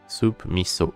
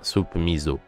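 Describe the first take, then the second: First: Miso is said with a sharp s sound. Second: Miso is said with a buzzing z sound. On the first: The speaker calls it right. "c'est vraiment le mi et le so en séparé" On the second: The speaker calls it wrong. "il se prononce zo"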